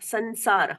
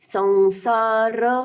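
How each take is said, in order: First: The final r sound is cut short. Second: The final r sound is fully pronounced. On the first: The speaker calls it wrong. "संसार बोलते हैं तो र आधा हो गया" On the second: The speaker calls it right. "ये र पूर्ण हुआ"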